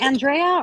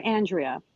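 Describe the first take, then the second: First: "Andrea" with stressed middle, an-DRAY-uh; name pronunciation query. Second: "Andrea" with stressed first syllable, AN-dree-uh; name pronunciation query. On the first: Co-host checking caller's name, "Andrea" as an-DRAY-uh. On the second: Co-host checking caller's name, "Andrea" as AN-dree-uh. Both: Shown as a demonstration. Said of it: "It's Andrea".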